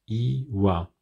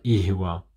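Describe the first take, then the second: First: The h sound is silent. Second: The h sound is clearly heard. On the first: The speaker calls it right. "on dira iwa" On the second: The speaker calls it wrong. "On ne dira pas ihwa"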